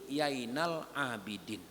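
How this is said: The name starts with a y sound.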